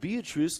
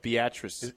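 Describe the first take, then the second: First: Beatrice is said the way outsiders say it. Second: Beatrice is said the way locals say it. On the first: The speaker calls it wrong. "And they would say, "Ooh, and Beatrice loses to Waverly." I'm like, no, dude, get it right" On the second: The speaker calls it right. "Say it right. It's Beatrice"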